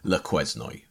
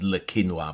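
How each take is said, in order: First: The name is said anglicised, sounding every letter. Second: The name is said the French way, like 'kenwa'. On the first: "it looks like an anglicised version" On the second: "the pronunciation is Le Quinoa"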